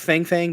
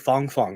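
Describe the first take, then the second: First: The vowel sounds like the a in 'fang'. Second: The vowel sounds like the o in 'fong'. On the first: The speaker calls it wrong. "I like Fang Fang because then you can" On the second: The speaker calls it right. "it's actually Fong Fong apparently is how you pronounce it"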